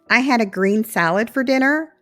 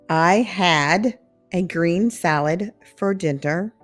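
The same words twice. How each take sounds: First: It is said at a natural, faster speed. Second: It is said slowly and carefully.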